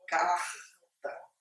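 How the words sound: It is said in a Rio de Janeiro accent. "conforme os cariocas falam"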